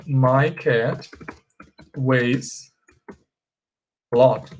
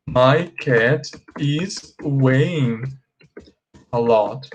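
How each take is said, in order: First: Slow, spaced words for the class; slow model sentence. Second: Slow, drawn-out incorrect sentence; slow wrong example. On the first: Teacher showing students the correct sentence, slow and spaced. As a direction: lay each word out slowly. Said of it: "ó". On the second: Teacher showing students the incorrect sentence, slow and drawn out. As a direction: stretch out the wrong version so they hear it. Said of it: "A frase incorreta seria". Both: Shown as a demonstration.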